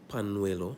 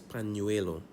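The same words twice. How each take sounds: First: The middle consonant is a plain n sound. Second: The middle consonant is an ny sound. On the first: The speaker calls it wrong. "it's N-Y and not N. So it's not pañuelo" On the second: The speaker calls it right. "it's pañuelo"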